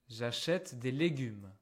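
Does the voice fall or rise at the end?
falls. The voice falls at the end. It is a statement of information.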